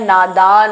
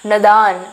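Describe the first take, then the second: First: The first vowel is long. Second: The first vowel is short. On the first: The speaker calls it right. "न के ऊपर आ की पाई होगी" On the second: The speaker calls it wrong. "नदान नहीं होता है"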